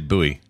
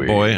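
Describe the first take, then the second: First: It is said as two syllables, like boo-ee. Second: It is said as one syllable, like boy. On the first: This is how the speaker says it. "I say buoy" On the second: This is how some other people say it. "Some people say boy"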